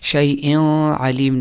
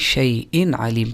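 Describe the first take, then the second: First: The n sound is blended and not clearly pronounced. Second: The n sound is pronounced clearly and distinctly. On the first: The speaker calls it wrong. "नहीं" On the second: The speaker calls it right. "बल्कि शैइन आलिम पढ़ा जाएगा"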